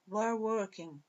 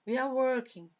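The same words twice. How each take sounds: First: "we are" merged into one syllable, "we're"; contracted form. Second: Said in the usual way. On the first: Shown as a demonstration. Teacher showing students the short form, "we are" slurred into we're. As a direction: say "we are" run together as we're. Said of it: "Forma contraída aqui".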